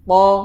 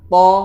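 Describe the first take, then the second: The two takes are said the same way.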